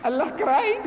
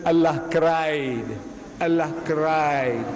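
First: High, rising disbelief; startled high echo; incredulous. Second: Very slow, solemn statement; grave, drawn-out reply. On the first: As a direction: question it in shock, pitch leaping. Reverend incredulous at the answer. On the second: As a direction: let each word land slowly. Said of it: "the Maulana slowly". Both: Retold or imitated.

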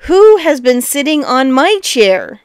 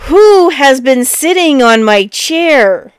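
First: Lightly voiced middle bear; a milder bear's cry, moderately raised; middling-sized voice. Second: Loud, slow big bear bellow; great big voice. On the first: Middle bear finding the chair used, middling-sized voice. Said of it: "in a middling-sized voice". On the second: Big bear finding his chair used, great big voice. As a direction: cry out slowly as a huge bear. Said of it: "he cried out in his great big voice". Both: A narrator's reading.

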